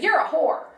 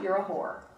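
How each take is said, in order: First: It is yelled loudly and angrily. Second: It is said calmly and matter-of-factly.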